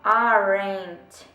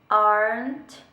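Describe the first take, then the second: First: An E vowel is heard between R and N. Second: The R runs straight into the N. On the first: The speaker calls it wrong. "Você não fala aren't, você não fala o E" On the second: The speaker calls it right. "você só fala essa junção do R com o N"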